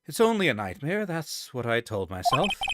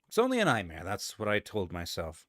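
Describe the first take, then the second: First: It is said in a put-on character voice. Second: It is said in his natural voice.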